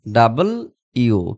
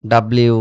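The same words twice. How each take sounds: First: ডাবল ইউ said slowly as two clear words, double you; correct pronunciation. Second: ডাব্লিউ run together as dabliu; ডাব্লিউ said the habitual local way, fused; old way of saying it. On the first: Teacher models the right way for students, ডাবল ইউ slow and split. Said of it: "But this is called". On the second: Teacher shows students the old habit, ডাব্লিউ run together. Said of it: "ডব্লিউ, আমরা যাই বলতাম।". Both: Shown as a demonstration.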